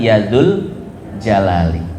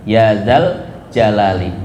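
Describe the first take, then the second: First: The second word is said with a 'u' vowel. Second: The second word is said with an 'a' vowel. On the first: The speaker calls it wrong. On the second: The speaker calls it right. "itu yang benar"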